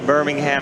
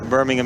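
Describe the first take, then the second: First: The h sound in the name is pronounced. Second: The h sound in the name is silent. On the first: It names the city in the United States. "If it was uh, the U S, Birmingham, Alabama" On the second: It names the city in England. "I don't really think you should pronounce the H"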